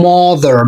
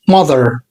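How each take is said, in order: First: "mother" shown as the mistaken version, slowly; wrong pronunciation. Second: "mother" with a short uh, lower; correct pronunciation. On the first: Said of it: "مش بنقول mother". (النطق الغلط لكلمة mother) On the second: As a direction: give the right "mother". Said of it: "بنقول mother". (النطق الصح لكلمة mother) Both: Shown as a demonstration.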